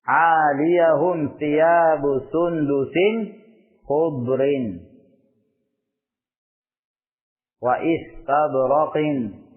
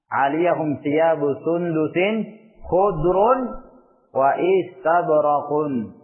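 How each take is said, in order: First: Khudr ends in -in, istabraq ends in -in. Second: Khudr ends in -un, istabraq ends in -un. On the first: "dua-duanya di kasrah majrur" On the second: "dua-duanya di dhammah"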